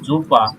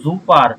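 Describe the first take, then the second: First: The word ends in an open 'a' sound, no r. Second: The word ends with an audible r sound. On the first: The speaker calls it right. "শব্দের শেষে যদি এ আর থাকে তাহলে এটার উচ্চারণ আ এর মতো হবে" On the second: The speaker calls it wrong. "র হওয়ার কথা ছিল লাস্টে, বাট রটা হয় নাই"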